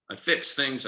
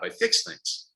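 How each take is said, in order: First: Said in the usual way. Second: Breathy whisper of the mantra; "I fix things" whispered, no voice. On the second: Shown as a demonstration. Repeats mantra, second take differs.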